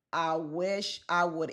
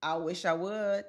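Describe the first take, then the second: First: "I wish I would" drawn out slowly; slow, daring emphasis; slow defiant repeat. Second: Said in the usual way. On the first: Shown as a demonstration.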